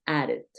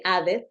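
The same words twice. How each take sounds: First: "added" as "ared", with a tapped R; D sounded like R. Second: "added" with a full Spanish D, not tapped; hard D, wrong way. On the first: Teacher corrects the learner's version, "added" with D as R. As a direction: turn the DD in "added" into a light R. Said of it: "dices added". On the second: Teacher shows learners what to avoid, "added" with unsoftened D. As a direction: pronounce the D in "added" as a plain D. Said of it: "No dices exactamente added". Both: Shown as a demonstration.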